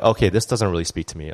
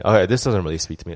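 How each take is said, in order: First: Said in the usual way. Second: Quicker, brushing it off; hurried, unimpressed mutter; fast dismissive repeat. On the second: Retold or imitated. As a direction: rattle it off fast as you flip sermons. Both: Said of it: "I'll be like".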